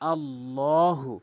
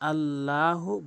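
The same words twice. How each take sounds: First: The L is heavy and full-mouthed. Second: The L is light and thin. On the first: The speaker calls it right. "তাহলে এখানে ল হবে" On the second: The speaker calls it wrong. "অধিকাংশ লোক আল্লাহু বলে, আল্লাহু বলা যাবে না"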